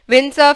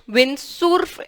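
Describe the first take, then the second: First: It is pronounced the English way. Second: It is pronounced the Spanish way. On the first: "in English" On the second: "en español"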